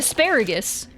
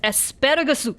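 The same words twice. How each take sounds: First: It is pronounced with English pronunciation. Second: It is pronounced with Japanese pronunciation. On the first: "Just say asparagus" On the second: "which is how you'd say it in Japanese"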